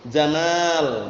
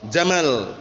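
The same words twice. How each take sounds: First: The last vowel is held long. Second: The last vowel is held short. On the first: It means beauty. The speaker calls it right. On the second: It means camel. The speaker calls it wrong. "pendek gitu"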